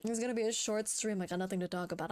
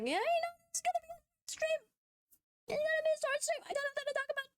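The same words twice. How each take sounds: First: Said in the usual way. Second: Put-on very high, cutesy girly voice; squeaky e-girl pitch. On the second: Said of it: "I have to use the e-girl voice again".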